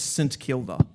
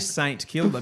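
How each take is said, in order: First: The word 'Saint' is reduced and barely heard. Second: The word 'Saint' is pronounced fully. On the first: The speaker calls it right. "There is no saint" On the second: The speaker calls it wrong. "I know people say Saint Kilda, but it's wrong"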